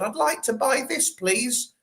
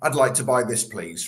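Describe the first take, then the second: First: It is said in an exaggerated camp voice. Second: It is said in a plain, ordinary voice.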